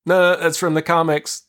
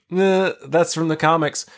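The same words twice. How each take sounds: First: Owning the nerdiness. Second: Nerdy correction. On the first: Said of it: "own it and be like". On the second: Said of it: "I was like". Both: Retold or imitated.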